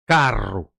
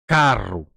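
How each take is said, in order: Both takes have the same delivery.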